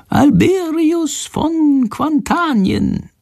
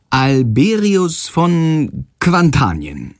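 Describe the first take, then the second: First: Very high, slow prompting; slowly feed him the name, bird voice; whispered prompt from the bird. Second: "Alberius von Quantanien" slowly, syllable by syllable; slow repeat. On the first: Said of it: "Schandors leise Stimme hinter der Kaffeekanne vorsagen". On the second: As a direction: echo the name carefully and slowly. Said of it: "Jendrik spricht langsam nach". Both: A narrator's reading.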